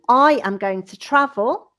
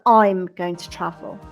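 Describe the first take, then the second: First: The subject and verb are said in full. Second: The subject and verb are said contracted. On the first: "the long form" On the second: "the contracted form"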